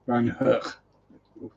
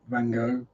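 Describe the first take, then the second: First: The name is said in a Dutch-like way. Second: The name is said in an American way. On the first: "I can't do Dutch, but that's the closest" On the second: "as the Americans pronounce it"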